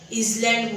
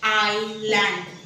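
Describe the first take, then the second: First: A z sound follows the first vowel. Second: The l sound directly follows the first vowel. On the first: The speaker calls it wrong. "इझलँड बोलतात" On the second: The speaker calls it right. "Correct pronunciation आहे आयलँड"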